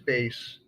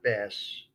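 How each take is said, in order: First: It sounds like the musical instrument word. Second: It sounds like the word for the fish. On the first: It names the instrument with four strings. The speaker calls it right. "the word is bass" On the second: It names a fish. The speaker calls it wrong. "not bass. The guy holding that big thing with the four strings isn't holding a fish"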